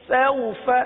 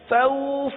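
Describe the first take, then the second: First: The vowel is short and soft, not lengthened. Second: The vowel is drawn out and lengthened. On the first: The speaker calls it right. "तो नरमी किस तरह पैदा होगी?" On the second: The speaker calls it wrong. "तो ये खींच गया, और खींच खींचना नहीं है"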